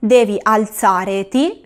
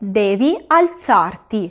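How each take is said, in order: First: The e of the infinitive ending is kept. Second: The e of the infinitive ending is dropped. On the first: The speaker calls it wrong. "yo no digo" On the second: The speaker calls it right. "sino que digo"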